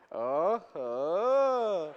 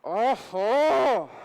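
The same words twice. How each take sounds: First: It is said sarcastically. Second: It is said angrily through clenched teeth.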